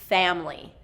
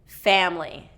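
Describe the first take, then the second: Both takes have the same delivery.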